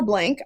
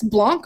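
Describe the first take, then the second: First: "Blank" rhyming with "tank"; plain English reading. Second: "Blanc" with an open ah vowel, like "blonk"; fancy French-style reading. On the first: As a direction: say "Blank" with an everyday short a. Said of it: "I heard it pronounced both ways". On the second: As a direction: give "Blanc" its fancier French-sounding vowel. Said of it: "go with Blanc because it sounds fancy". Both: Shown as a demonstration.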